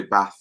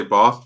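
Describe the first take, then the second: First: "bath" with a short a, as in cat; short-A northern BATH. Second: "bath" with a long open ah; long-A southern BATH. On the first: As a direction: say "bath" the Leeds way, short vowel. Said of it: "they say bath". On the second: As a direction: say "bath" the southern English way, "bahth". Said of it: "We say bath". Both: Shown as a demonstration.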